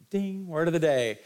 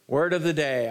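First: Game show announcer. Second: Said in the usual way. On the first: Shown as a demonstration.

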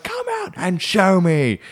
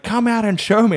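First: High, slow, drawn-out demand; mock mum refusing to budge; imitated insistent mum. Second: High, quick motherly demand; mock mum calling someone out; pitched-up order at ordinary pace; imitated insistent mum. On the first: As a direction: stretch each word in a pitched-up motherly order. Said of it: "No, she's like". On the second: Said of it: "She'd be like".

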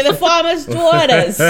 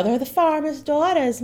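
First: Put-on higher, louder, laughing rural Southern accent; second try at accent. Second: Put-on a weak stab at a rural Southern accent, pitched up; bad farm accent. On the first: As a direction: try the country accent again through laughter. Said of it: "Keep trying". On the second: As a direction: attempt a country accent and miss. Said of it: "that was not a good accent".

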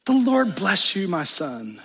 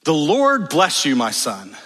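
First: Higher, lightly mocking doting mother; bizarrely sweet mother. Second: Said in the usual way. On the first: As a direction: mimic her odd blessing. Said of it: "the mother responds in a bizarre way". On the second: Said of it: "Then his mother said".

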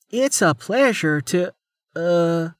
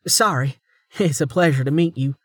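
First: Halting, higher-pitched greeting that stalls; awkward, struggling. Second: Recovered, slightly high polite greeting; composed, straightened up. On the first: Officer introduced to Amelia, awkward and struggling. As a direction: start high, then falter into a hesitation. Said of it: "she struggled". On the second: Officer straightening to greet Amelia, composed. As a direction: get the greeting out whole this time. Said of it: "then straightened". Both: A narrator's reading.

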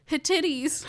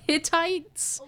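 First: "Hittites" misread as hih-TIT-eez; fumbled pronunciation. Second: "Hittites" as HIT-tights; corrected pronunciation. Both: Real, not acted. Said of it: "Let's just say Hittites".

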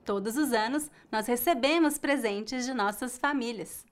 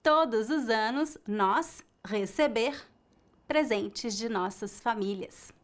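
First: "recebemos" stressed on "-be-" with a weak "-mos"; the answer take: "recebemos"; correct form. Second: "receber" in the infinitive with a final R; the error take: "receber", not conjugated; wrong form. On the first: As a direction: say "recebemos" with a faint ending. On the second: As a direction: say "receber" as the mistake. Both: Shown as a demonstration.

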